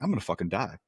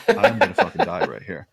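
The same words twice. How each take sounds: First: Said in the usual way. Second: Higher, louder comic alarm; mock panic. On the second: Strapped-down patient telling himself he is doomed, in hammed-up panic. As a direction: blurt it out in retold dread, pitched up. Same thought repeated, escalating.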